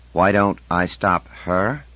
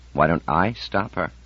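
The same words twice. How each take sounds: First: Slowly tasting the question. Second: Said in the usual way. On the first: A narrator's reading. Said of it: "as though he were tasting the question". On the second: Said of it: "said Seaver Ganar slowly".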